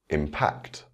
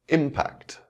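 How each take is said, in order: First: The stress is on the second syllable. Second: The stress is on the first syllable. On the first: It is used as a verb. "with the verb, the stress will fall on the second syllable" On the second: It is used as a noun. "the noun will have its word stress on the first syllable"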